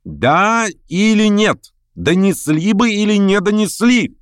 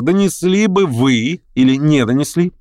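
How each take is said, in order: First: High-pitched, drawn-out cry; shouted demand. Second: Higher, pointed question; continued questioning. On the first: Verkhovensky demands the lame man's answer, crying out. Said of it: "крикнул Верховенский". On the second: Verkhovensky turns to the major, questioning pointedly. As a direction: put the question pointedly, less cried out. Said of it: "продолжал Верховенский". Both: A narrator's reading.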